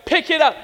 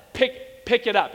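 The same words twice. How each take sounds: First: Raised, higher-pitched parental order; stern mom's command. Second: Controlled parental order. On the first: Mom grabbing her defiant son, stern imitated command. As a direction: imitate a mom losing patience, louder now. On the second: Mom to her small son in line, controlled order. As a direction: tell the child evenly, holding back. Mom's first order to child. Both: Retold or imitated.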